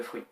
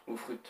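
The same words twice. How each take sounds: First: Said in the usual way. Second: "fruit" pronounced the English way; French speaker trying English "fruit"; English accent. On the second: Shown as a demonstration. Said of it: "avec l'accent anglais ou pas accent anglais".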